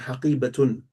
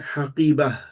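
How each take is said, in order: First: The word ends with the full -tun ending. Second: The word ends in -ah, with the ending dropped.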